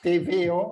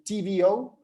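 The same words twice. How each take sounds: First: The letters are named with Spanish pronunciation. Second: The letters are named with English pronunciation.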